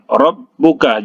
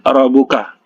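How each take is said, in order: First: The doubled b sound is held longer. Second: The doubled b sound is cut short. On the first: The speaker calls it right. "huruf ba yang bertasydid ditahan" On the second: The speaker calls it wrong.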